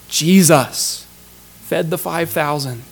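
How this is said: The stress falls on the word Jesus. The focus is on who gave the food. The speaker calls it right. "I think the emphasis is much more"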